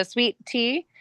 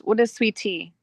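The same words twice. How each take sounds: First: "sweet tea" slowly, as two distinct words; slow, separated "sweet tea". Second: "sweet tea" run into one word; "what is sweet tea" with "sweet tea" fused; words blended together. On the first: Shown as a demonstration. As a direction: say "sweet tea" with a clear break before "tea". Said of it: "they blend it all together". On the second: Retold or imitated. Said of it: "it's all one word".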